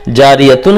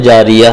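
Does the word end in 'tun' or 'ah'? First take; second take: tun; ah. First: The word ends with a full tun syllable. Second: The word ends with a stopped ah sound. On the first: The reader continues without stopping. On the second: The reader stops on this word.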